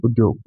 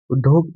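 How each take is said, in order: First: उद्योग with a clear dy glide; correct conjunct. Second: उद्योग said without the y, as "uddog"; mispronounced conjunct. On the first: Teacher contrasts spellings for learners, उद्योग with dy. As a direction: sound the y after d in उद्योग. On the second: Teacher contrasts spellings for learners, उद्योग with no y sound. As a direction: drop the glide in उद्योग. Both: Shown as a demonstration. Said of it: "इसमें मात्राएं".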